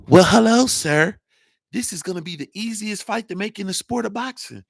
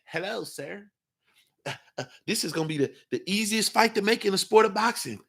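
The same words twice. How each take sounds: First: The same timid greeting thrown out much louder; louder mocking impression. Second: A hushed, much softer, timid mock of a boxer; mock the meek boxer's soft greeting; soft mocking impression. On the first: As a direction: ham up the meek boxer's greeting loudly. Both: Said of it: "Shut that soft shit up".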